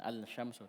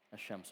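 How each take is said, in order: First: The L sound is clearly pronounced before sh. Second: The L merges into a doubled sh sound. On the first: The speaker calls it wrong. "bukan al-syamsu" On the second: The speaker calls it right. "tidak dibaca, melebur"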